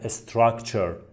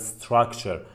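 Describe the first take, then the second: First: An extra vowel comes before the first s. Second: The word starts straight on the s sound. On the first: The speaker calls it wrong. "میگن استراکچر" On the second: The speaker calls it right. "باید بگن structure"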